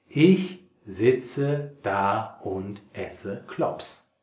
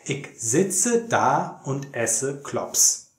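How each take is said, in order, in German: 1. Es wird mit standarddeutscher Aussprache gesprochen. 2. Es wird mit Berliner Dialektakzent gesprochen. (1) "Jetzt das Gleichgedicht nochmal auf Hochdeutsch" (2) "möchte ich euch den Berliner Dialekt zeigen anhand dieses Gedichts"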